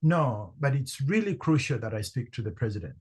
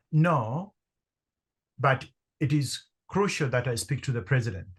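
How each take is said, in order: First: "really" pressed a bit harder, quicker pace; a slightly firmer retold "No, but it's really crucial"; slight emphasis. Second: Confident. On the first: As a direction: lean lightly on "really crucial". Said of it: "I slightly emphasized my response". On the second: Retold or imitated. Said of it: "as confidently as I could".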